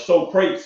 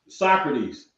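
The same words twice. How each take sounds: First: The name is said in a Texan way. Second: The name is said in the standard way.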